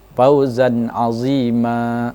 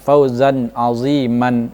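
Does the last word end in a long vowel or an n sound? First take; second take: long vowel; n sound. First: The last word ends in a lengthened vowel. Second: The last word ends in an n sound. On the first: The speaker calls it right. "tanwin itu dihilangkan ... dipanjangkan harokatnya dua harokat" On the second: The speaker calls it wrong. "bukan fauzan aziman, itu salah"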